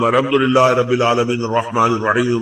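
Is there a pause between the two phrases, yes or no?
no. The two phrases run together without a pause.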